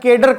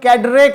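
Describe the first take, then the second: First: The word ends with a plain 'r' sound. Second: The word ends with an added 'ray' sound. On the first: This is how it is said locally. "हमारे यहाँ केडर कहा जाता है" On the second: This is how it is said in America. "America में कैडरे कहते हैं"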